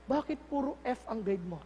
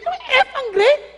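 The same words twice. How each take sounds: First: Put-on low, soft question to a child; gentle parent. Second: High, loud disbelieving question; shocked parent. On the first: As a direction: ask the child calmly and quietly. Parent calmly asks child after praying. (mahinahong magulang) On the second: Acted. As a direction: react aghast to the failing grade. Acting parent shocked at failing grades. (gulat na magulang)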